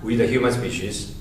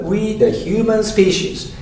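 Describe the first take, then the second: First: Flat, low and soft; no rise on we. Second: We starts high, then human falls; rising pitch. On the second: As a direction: lift the voice on we, then fall on human species. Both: Shown as a demonstration.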